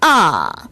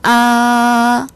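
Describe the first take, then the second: First: The pitch starts higher and drops sharply. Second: The pitch stays high and level. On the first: "일성보다 소리가 더 높은 음에서 뚝 떨어집니다" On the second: "일성"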